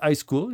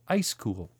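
First: It is said in a French accent. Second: It is said in a plain English accent.

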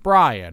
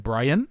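First: The stress is on the first syllable. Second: The stress is on the second syllable. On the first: The speaker calls it right. "the first syllable like has an emphasis, and we kind of dribble off on the end" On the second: The speaker calls it wrong. "We don't say Brian"

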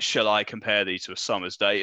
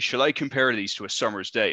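First: It has a modern accent with R sounds dropped. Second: It has a rhotic Southwest accent with R sounds pronounced.

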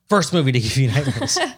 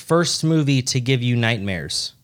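First: It is said as a forceful, demanding command. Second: It is read out in a plain, neutral way.

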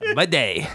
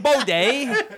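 First: The first syllable sounds like 'bih'. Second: The first syllable sounds like 'bo'. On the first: The speaker calls it right. "That's it" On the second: The speaker calls it wrong. "Not bo-day"

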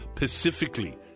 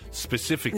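First: The word starts with a pa sound. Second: The word starts with a spe sound. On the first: The speaker calls it wrong. "people say pacifically instead of specifically" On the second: The speaker calls it right. "instead of specifically"

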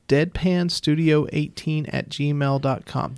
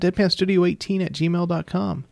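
First: It is said a little more slowly. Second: It is said at a normal speed.

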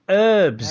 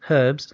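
First: The initial h sound is silent. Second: The initial h sound is pronounced. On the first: This is how Americans say it. The speaker calls it wrong. "he said herbs" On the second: This is how it is said in the UK. The speaker calls it right. "which is what it is"

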